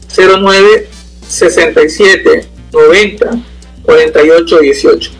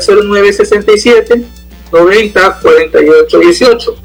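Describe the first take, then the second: First: The number is said more slowly. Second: The number is said at normal, faster speed.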